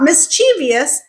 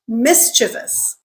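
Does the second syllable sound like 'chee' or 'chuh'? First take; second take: chee; chuh. First: The second syllable is pronounced with an 'ee' sound. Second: The second syllable is pronounced without an 'ee' sound. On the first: The speaker calls it wrong. "Not mischievous" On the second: The speaker calls it right. "pretend that E in the second syllable doesn't exist"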